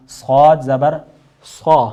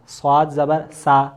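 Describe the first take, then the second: First: صاد زبر صا said full and loud; heavy sad. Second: صاد زبر سا said thin like سین. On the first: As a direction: give صا a thick full sound. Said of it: "جبکہ صا". (صاد پُر آواز میں) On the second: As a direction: read سا light and thin, the wrong way. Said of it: "سین پڑھ دیا آپ نے". (باریک سا غلط) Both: Shown as a demonstration.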